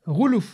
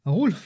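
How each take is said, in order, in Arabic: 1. اللام عليها ضمة. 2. اللام بلا حركة.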